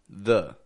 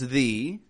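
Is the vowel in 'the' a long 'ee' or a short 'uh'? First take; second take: uh; ee. First: The word has a short, quiet 'uh' vowel. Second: The word has a long 'ee' vowel. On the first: The next word begins with a consonant. "it's going to be a schwa, the" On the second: The next word begins with a vowel. "Sometimes it's the. If the word after the begins with a vowel"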